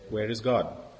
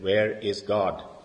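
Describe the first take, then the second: First: It is said at a normal volume. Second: It is said in a raised voice.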